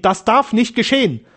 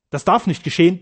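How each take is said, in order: First: High, rising-intensity cry of horror; terrified outcry. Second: First, more contained cry of dread; terrified protest. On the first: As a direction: cry it out in desperate fear. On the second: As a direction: protest in alarm, not yet at full pitch. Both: A narrator's reading. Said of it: "in entsetzlichster Angst".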